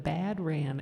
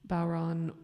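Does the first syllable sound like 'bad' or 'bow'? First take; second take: bad; bow. First: The first syllable sounds like 'bad'. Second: The first syllable sounds like 'bow'. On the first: The speaker calls it wrong. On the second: The speaker calls it right.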